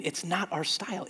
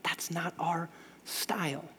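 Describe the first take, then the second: First: "not" in "It's not our style" hit firmly; quick emphatic "not"; stress on NOT. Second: "our" in "That's not our style" leaned on, slow and quiet; slow down and press on "our"; quiet, measured emphasis on "our"; stress on OUR. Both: Shown as a demonstration. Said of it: "the word named is style".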